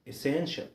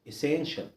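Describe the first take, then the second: The two takes are said the same way.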